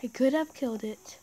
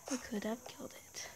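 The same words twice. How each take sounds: First: Said in the usual way. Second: Breathy unvoiced whisper. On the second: Real, not acted. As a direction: whisper it to yourself. Repeats line as a whisper.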